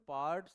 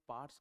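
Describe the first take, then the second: First: The r after the vowel is pronounced. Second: The r after the vowel is silent. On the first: The speaker calls it wrong. "हम ऐसे पार्ट्स नहीं बोलते हैं" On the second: The speaker calls it right. "केवल पार्ट्स कहते हैं। इसको silent कर दो"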